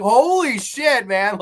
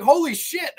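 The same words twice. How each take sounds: First: Slow, high, louder holy shit; drawn-out stunned outburst; shocked exclamation. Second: Much higher, punchy holy shit; shocked exclamation. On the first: Recalling the twist, stunned at the reveal. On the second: Hearing the killer say hey daddy, stunned. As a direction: squeak out the surprise. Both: Retold or imitated. Reviewer's own shocked reaction.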